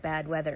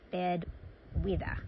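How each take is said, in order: First: It is said in a plain American accent. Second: It is said in an Australian accent. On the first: "if you think that you're having bad weather" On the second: "it's actually bad weather. I'll just throw in like a bad Australian accent"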